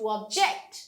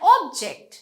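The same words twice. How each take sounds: First: The stress is on the second syllable. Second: The stress is on the first syllable. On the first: It is used as a verb. "ভার্বে পরের অংশে stress হয়" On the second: It is used as a noun. "নাউনে আমাদের first অংশে stress হয়"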